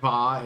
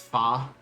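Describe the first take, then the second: First: It begins with a V sound. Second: It begins with an F sound. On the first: "So instead of va" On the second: "they pronounce them like F"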